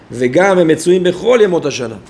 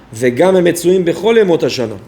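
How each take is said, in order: Both takes have the same delivery.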